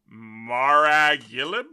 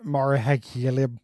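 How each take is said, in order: First: Billy Graham said backwards; backwards speech. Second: Repeating Maragilib slowly, testing it; backwards speech. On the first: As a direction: sound out Maragilib slowly, syllable by syllable. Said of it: "a popular example of a Hierophant to say backwards". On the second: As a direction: echo Maragilib back slowly. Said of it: "That's pretty good". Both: Shown as a demonstration.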